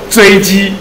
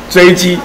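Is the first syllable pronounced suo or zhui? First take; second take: zhui; zhui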